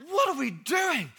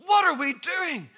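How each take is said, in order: First: Slow, high, laughing; laughing question. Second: Slow, high, louder; louder repeat. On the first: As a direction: ask it through a laugh. Preacher repeats question, laughing. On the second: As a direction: push the question harder. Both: Real, not acted.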